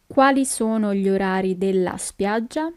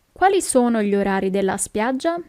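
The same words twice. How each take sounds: First: Measured, careful question. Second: Said in the usual way. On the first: Shown as a demonstration. Teacher repeats slower for learners.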